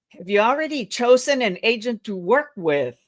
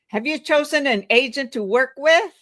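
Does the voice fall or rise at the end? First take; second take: fall; rise. First: The voice falls at the end. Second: The voice rises at the end.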